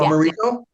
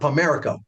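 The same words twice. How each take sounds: First: The name does not echo the word America. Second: The name sounds like the word America. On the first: The speaker calls it right. "you said it right the first time" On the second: The speaker calls it wrong. "I like the America sounding uh, uh, pronunciation"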